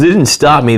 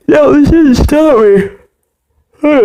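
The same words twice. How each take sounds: First: Said in the usual way. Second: Said through a big yawn. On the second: Real, not acted. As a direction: stretch the words out mid-yawn. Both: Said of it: "there's a lot of yawning in this episode".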